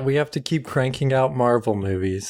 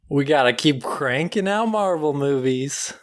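First: It is said with low energy. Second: It is said with high energy.

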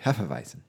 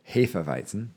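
First: The word is said with an anglicized pronunciation. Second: The word is said with a German pronunciation. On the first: The speaker calls it wrong. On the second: The speaker calls it right.

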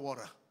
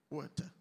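First: It is said with an American accent. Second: It is said with a British accent.

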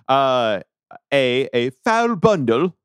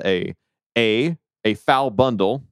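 First: It is said in a put-on British accent. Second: It is said in a plain American accent.

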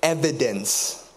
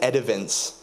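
First: The word is said with its usual sounds. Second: The d and v sounds are swapped. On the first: The speaker calls it right. "There was a word that really caught me up" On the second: The speaker calls it wrong. "I said edivence. It was very rough"

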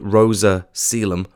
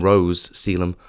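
First: The first name has two syllables. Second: The first name has one syllable. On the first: The speaker calls it right. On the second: The speaker calls it wrong. "I was calling them Rose Selim"

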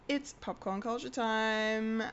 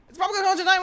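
First: It is said at a normal pace. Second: It is said very fast.

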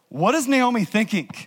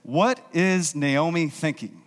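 First: It is asked with an incredulous, exasperated tone. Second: It is asked as a plain, neutral question.

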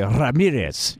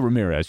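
First: The name is said with a Spanish pronunciation. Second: The name is said with an American pronunciation. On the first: The speaker calls it right. "you say Ramirez" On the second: The speaker calls it wrong. "you don't say Ramirez"

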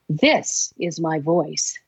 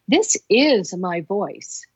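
First: The word 'this' carries the stress. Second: The word 'is' carries the stress.

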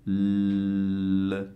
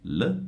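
First: The L sound is held and prolonged. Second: The L sound is brief and short. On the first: "o posso prolungare questo suono" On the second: "Io posso dire semplicemente L"

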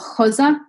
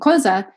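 First: The c sounds like an h. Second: The c is a hard k sound.

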